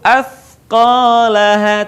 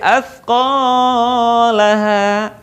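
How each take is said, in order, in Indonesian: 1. Vokal akhir dibaca pendek. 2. Vokal akhir dibaca terlalu panjang. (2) "tidak boleh"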